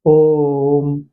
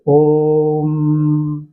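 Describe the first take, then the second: First: ओम held long as a prolonged pluta vowel; ओम को लंबा खींचकर; drawn-out om. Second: ओम held even longer and easier; ओम आराम से, धीरे-धीरे खींचकर; relaxed om. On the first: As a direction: chant ओम with the vowel stretched out. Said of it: "इसका उच्चारण कीजिए". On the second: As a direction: let ओम out slowly and at ease. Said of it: "और आराम से कर सकते हैं". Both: Shown as a demonstration.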